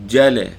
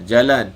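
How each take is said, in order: First: Kelantan accent jale, first sound pressed, louder; jale, initial j held and stressed, Kelantan style; Kelantan doubled j. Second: Said in the usual way. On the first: Shown as a demonstration. Teacher contrasting Kelantan jale for students, Kelantan accent. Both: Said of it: "dia tekan awal tu".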